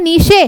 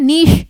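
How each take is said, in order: First: नीशे said with the final "e" sounded; wrong reading "neeshe". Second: नीश, one syllable, silent final e; correct "neesh". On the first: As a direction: read it wrongly as नीशे, two syllables. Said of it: "ई silent होता है". ("नीशे" में आख़िरी "ए" भी बोलें) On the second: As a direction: say नीश, ending on the "sh". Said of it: "इसको पढ़ा जाता है नीश". ("नीश" एक ही अक्षर में, अंत में "श") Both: Shown as a demonstration.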